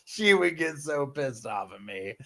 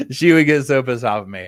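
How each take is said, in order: First: Laughing. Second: Said in the usual way. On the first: Real, not acted. Laughing recalling scaring her sister.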